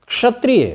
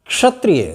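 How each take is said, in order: No difference in how they are said.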